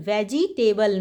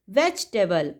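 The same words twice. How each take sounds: First: वेजिटेबल said in four syllables, "ve-ji-te-bal"; wrong pronunciation. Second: वेजिटेबल in three syllables, "vej-tuh-bal"; correct pronunciation. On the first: Teacher showing kids the wrong वेजिटेबल, said "ve-ji-te-bal". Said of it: "वेजिटेबल नहीं". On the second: Teacher giving kids the right वेजिटेबल, said "vej-tuh-bal". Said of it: "हम पढ़ते हैं वेजिटेबल". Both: Shown as a demonstration.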